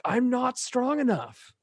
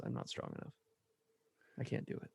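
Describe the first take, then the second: First: Much higher and slow, strained; imitating Mister Incredible screaming at his wife; mock scream. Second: Whispered, very soft confession; husband whispering his weakness to his wife. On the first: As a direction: cry it out as a breaking confession. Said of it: "like, screams". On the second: Retold or imitated. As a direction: barely breathe it out, ashamed. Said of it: "he just gets really quiet".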